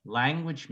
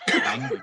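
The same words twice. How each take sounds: First: Said in the usual way. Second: "language" squeaked high and breathy; a kid teasing his teacher, voice up high and airy; "language" tossed up high with no voice behind it; high breathy scolding. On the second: Retold or imitated. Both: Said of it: "One kid goes".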